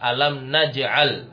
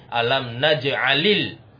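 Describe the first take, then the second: First: The verb ends with no vowel after l. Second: The verb ends with an added i vowel. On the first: It is the base form standing alone. "Aslinya dia apa? Alam naj'al, nah, disukun" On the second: It is read joined to the next word. "kalau dibaca langsung menjadi alam naj'alil di kasroh karena bertemu dua sukun"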